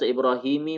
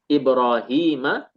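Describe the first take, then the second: First: The word ends with a short i vowel. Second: The word ends with a short a vowel. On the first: The speaker calls it wrong. "tidak majrur dengan kasrah, tidak dibaca Ibrahimi" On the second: The speaker calls it right. "Melainkan dengan apa? Fathah"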